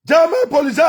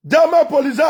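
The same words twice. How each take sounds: The two takes are said the same way.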